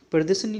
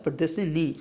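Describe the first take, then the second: First: प्रदर्शनी with short final "ni"; quick ending on प्रदर्शनी; wrong form. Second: प्रदर्शनी with long final "nee"; correct form. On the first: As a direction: run प्रदर्शनी together as per-de-sa-ni. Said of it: "नहीं होता". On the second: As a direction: stretch the last vowel of प्रदर्शनी. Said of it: "ई की आ-, मात्रा इसमें आएगी". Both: Shown as a demonstration.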